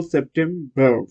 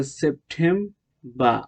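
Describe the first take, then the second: First: সেপ্টেম্বর with a sounded final r; American pronunciation. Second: সেপ্টেম্বর drawn out to a final "bah", r silent; British pronunciation. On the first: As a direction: finish সেপ্টেম্বর on "berr". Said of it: "American হলো". (সেপ্টেম্বর, শেষে র-সহ American উচ্চারণে) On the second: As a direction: drop the last r of সেপ্টেম্বর, "sep-tem-bah". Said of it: "উচ্চারণ হয় না British উচ্চারণ". (সেপ্টেম্বর, র-হীন British উচ্চারণে) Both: Shown as a demonstration.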